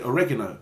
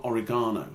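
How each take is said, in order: First: OREGANO stressed on the second syllable; Spanish-style OREGANO. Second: OREGANO stressed on the third syllable, "GAH"; English OREGANO. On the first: Speaker saying it the way mum does, OREGANO stressed on REG. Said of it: "I tend to pronounce certain things". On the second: Speaker rejecting the English way, OREGANO stressed on GAH. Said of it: "is an English way of saying it". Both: Shown as a demonstration.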